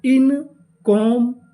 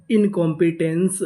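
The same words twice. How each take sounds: First: Drawn out, louder, syllable by syllable; slow syllable by syllable. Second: Said in the usual way. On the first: Shown as a demonstration. Teacher sounding out the word for students, slow and loud. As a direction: sound out the whole word slowly. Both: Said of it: "तो हमारी पूरी meaning क्या बनी?".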